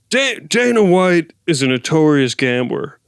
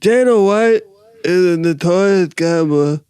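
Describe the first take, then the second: First: The put-on voice is bold and fully committed. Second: The put-on voice is timid and half-hearted.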